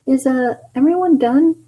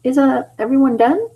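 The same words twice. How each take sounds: First: Very high squeaky question; Tails voice. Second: High, gentle Tails voice. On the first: Tails asking if everyone finished, very high. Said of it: "why do I say it like that?". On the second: Tails timidly asking the others, high. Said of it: "I've gotta also do the tone". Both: Acted.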